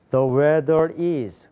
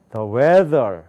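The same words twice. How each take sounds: First: "The weather is" run together as one chunk; wrong phrasing. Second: "The weather" as a chunk of its own; correct phrasing. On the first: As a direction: attach "is" to "The weather" and stop after it. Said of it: "그럼 틀리는 거예요". ("is"까지 붙여서 잘못 읽기) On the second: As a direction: stop cleanly after "weather", before any "is". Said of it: "기후는 이렇게 되는 겁니다". ("weather"에서 끊어 읽기) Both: Shown as a demonstration.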